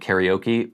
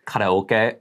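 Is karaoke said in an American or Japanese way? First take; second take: American; Japanese. First: It is said with an American-style pronunciation. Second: It is said with a Japanese-style pronunciation. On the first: "instead of karaoke" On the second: "pronouncing like karaoke"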